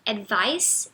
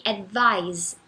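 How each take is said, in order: First: "advice" ending in a hissed S; slow, careful "advice" with a voiceless S at the end. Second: "advise" ending in a voiced Z; slow, careful "advise" with a buzzing Z at the end. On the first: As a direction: finish "advice" on S, not Z. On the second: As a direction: finish "advise" on Z, not S. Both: Shown as a demonstration. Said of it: "a gente pronuncia com som de Z".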